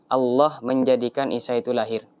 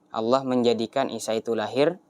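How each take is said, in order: Both takes have the same delivery.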